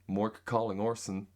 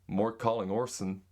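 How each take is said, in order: First: It is said in an American accent. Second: The same.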